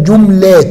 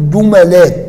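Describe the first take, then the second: First: "جملات" as jum-laat, no vowel after م; middle consonant unvowelled. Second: "جملات" as ju-ma-laat, short a after م; middle vowel a. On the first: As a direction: close the م of "جملات" straight onto the ل. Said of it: "والإسكان". (نطق "جملات" بتسكين الميم) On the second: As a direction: open the م of "جملات" with an a. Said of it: "الفتح، تقول". (نطق "جملات" بفتح الميم) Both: Shown as a demonstration.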